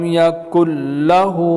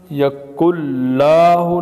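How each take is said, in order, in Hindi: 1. 'l' के बाद का स्वर छोटा है। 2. 'l' के बाद का स्वर खींचकर लंबा है।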